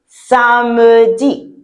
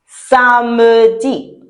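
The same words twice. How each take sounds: Both takes have the same delivery.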